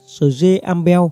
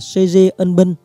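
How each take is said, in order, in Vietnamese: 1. Tên được đọc theo dạng gốc. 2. Tên được đọc theo dạng tiếng Việt.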